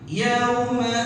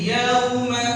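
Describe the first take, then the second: Both takes have the same delivery.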